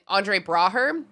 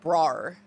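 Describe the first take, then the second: First: The name is pronounced hard and forcefully. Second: The name is pronounced soft and lightly. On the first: The speaker calls it wrong. "I feel like I pronounced that too hard" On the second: The speaker calls it right. "It's like Brar"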